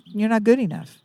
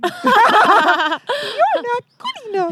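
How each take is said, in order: First: It is said in the speaker's normal voice. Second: It is said in a squeaky Mickey Mouse voice.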